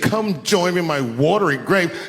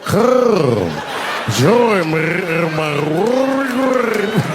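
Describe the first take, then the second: First: It is said in a plain voice. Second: It is said in a rolling, throaty voice.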